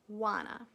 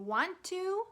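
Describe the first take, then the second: First: It is reduced and blended into one word. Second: It is said as two full words. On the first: "a very common English reduction" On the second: "instead of saying do you want to"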